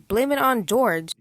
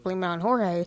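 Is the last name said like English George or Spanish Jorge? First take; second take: English George; Spanish Jorge. First: The name is said the English way, like jorj. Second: The name is said the Spanish way, like hor-hay. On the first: This is how most people say the name. "people actually pronounce it as Blame It on George" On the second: This is how one streamer says the name. "Chris pronounces it as Blame It on Jorge"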